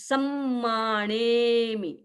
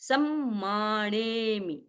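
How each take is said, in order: No difference in how they are said.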